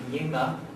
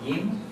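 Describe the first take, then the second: First: A short extra vowel follows the n. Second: The syllable closes on the n, no vowel follows. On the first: The speaker calls it wrong. "not yinna" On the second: The speaker calls it right. "He's a closer. So yin"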